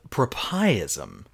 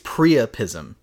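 First: The word begins with a 'pro' sound. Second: The word begins with a 'pri' sound. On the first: The speaker calls it wrong. "I don't think I said it right" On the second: The speaker calls it right. "I think it's priapism"

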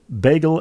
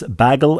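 First: The first vowel is a long A sound. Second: The first vowel is a short A sound.

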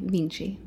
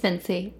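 First: The name is said the Italian way. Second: The name is said the American way.

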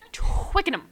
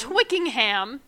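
First: The first syllable rhymes with quick. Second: The first syllable does not rhyme with quick. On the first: The speaker calls it right. "It's quick" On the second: The speaker calls it wrong. "It's not Twickenham"

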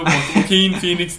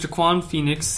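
First: The first name is given its standard original pronunciation. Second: The first name is given a mangled joke pronunciation. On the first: The speaker calls it right. "for real though" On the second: The speaker calls it wrong. "Why do you keep saying it like that?"

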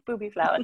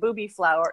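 First: It is said in a non-American accent. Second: It is said in an American accent. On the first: The speaker calls it right. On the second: The speaker calls it wrong.

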